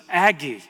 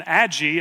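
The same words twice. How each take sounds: First: Aggie said as "AG-ee"; hard g in Aggie, as in bag; hard-g pronunciation. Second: Aggie said as "ADJ-ee"; soft-g mispronunciation. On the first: Dad revealing her first name for herself, Aggie with hard g. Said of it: "At first". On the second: Dad telling her later name, Aggie with soft g. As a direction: make the g in Aggie a j sound. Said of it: "it wasn't even Aggie". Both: Retold or imitated.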